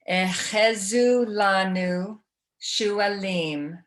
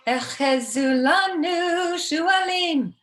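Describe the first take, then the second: First: The phrase is spoken slowly. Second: The phrase is spoken quickly. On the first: "we're going to slow it down" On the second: "this is how fast she does it"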